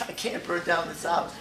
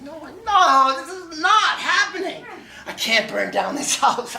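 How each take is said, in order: First: Said in the usual way. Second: Very high, loud frantic pleading; panicked. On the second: Retold or imitated. Locked out with a burning pot, frantic high panic. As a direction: lose it completely, pitch cracking up.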